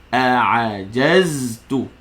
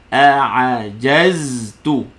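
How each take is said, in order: The two takes are said the same way.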